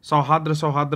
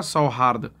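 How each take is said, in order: First: सौहार्द said as sau-haadr, with the r moved after the d; common wrong pronunciation. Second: सौहार्द said sau-haard, with the र before the final द; correct pronunciation. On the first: Teacher imitates how students wrongly say सौहार्द. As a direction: imitate the mistake, ending सौहार्द in -dr. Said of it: "लोग पढ़ते हैं". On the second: Teacher shows students the correct सौहार्द, clearly pronounced. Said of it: "correct उच्चारण होगा सौहार्द". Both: Shown as a demonstration.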